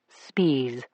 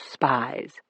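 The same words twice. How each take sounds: First: The name is not said like the word spies. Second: The name is said like the word spies. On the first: This is how the man himself said his name. The speaker calls it right. "That's how he pronounced it" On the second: This is not how the man himself said his name. The speaker calls it wrong. "not spies"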